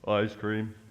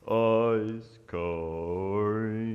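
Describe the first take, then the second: First: It is said at normal speed. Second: It is said slowly and drawn out.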